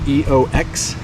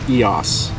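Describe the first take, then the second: First: The name ends with an X sound. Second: The name ends with an S sound. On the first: The speaker calls it wrong. "Some people are saying E O X" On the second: The speaker calls it right. "it is actually pronounced like it has an S on the end"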